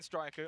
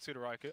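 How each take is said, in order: First: It starts with a tight str cluster, no vowel. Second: A vowel separates the s from the next sound. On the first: This is how the other commentator says it. "you're saying Straiku" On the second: This is how the speaker says it. "I'm saying Sudoraiku"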